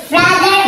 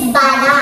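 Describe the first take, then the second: First: Said in the usual way. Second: "bada" as ba-da, no r anywhere; taught pronunciation. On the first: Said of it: "Brother is bada". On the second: Shown as a demonstration. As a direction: model "bada" as two open syllables. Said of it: "Pronunciation sa brother is". (bigkasin ang "bada" na ba-da)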